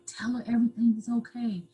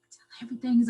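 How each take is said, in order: First: Hushed, pressing whisper. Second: Said in the usual way. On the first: Retold or imitated. Abuser whispering to her that everything is okay. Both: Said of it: "I kept whispering it to me".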